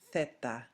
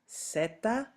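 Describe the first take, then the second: First: The word begins with a 'th' sound. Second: The word begins with an 's' sound. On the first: This is the way of saying it in Spain. "in Spain" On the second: This is the Latin American way of saying it. "in Latin America"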